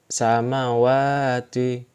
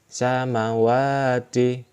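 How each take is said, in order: The two takes are said the same way.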